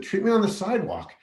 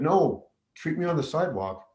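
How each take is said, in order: First: Higher, emphatic "Treat me on the sidewalk"; exasperated repeat; insistent repeat. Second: Said in the usual way. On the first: Retold or imitated. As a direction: push it again, pitched up with insistence. Repeating refusal to stunned medics.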